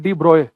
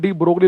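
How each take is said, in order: First: The g and l sounds are silent. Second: The g and l sounds are pronounced. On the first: "उसका सही pronunciation है" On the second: "Hindi में डी ब्रोगली लिखा जाता है"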